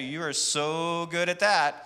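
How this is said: The voice sounds mocking and sarcastic. The speaker means the opposite of the words. "I'm being sarcastic"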